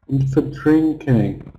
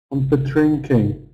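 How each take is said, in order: Both takes have the same delivery.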